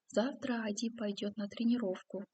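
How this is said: It is said as a statement, falling at the end. It states a fact. "сначала как повествовательное"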